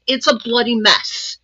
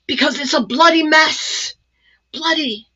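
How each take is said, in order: First: Said in the usual way. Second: Put-on a light, playful English accent, higher; mock English accent. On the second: Jokingly mimicking Lisa Horton's English accent for viewers. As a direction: toss off bloody in a hint of English accent. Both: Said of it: "I should talk with an English accent".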